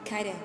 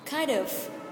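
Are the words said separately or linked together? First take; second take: linked; separate. First: The words run together in a reduced form. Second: Each word is said separately and in full.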